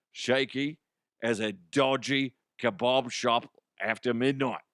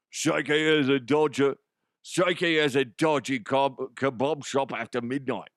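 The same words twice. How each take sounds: First: Tentative attempt at Cockney; lightly put-on Cockney accent. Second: Broad, hard-to-understand Cockney; thicker Cockney accent. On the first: Host reading a scripted hockey joke, mild mock Cockney. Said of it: "my Cockney accent needs some work". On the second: Shown as a demonstration. Host redoing the kebab line to improve it, exaggerated Cockney. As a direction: lay the mock Cockney on thick. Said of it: "make it a little bit harder to understand".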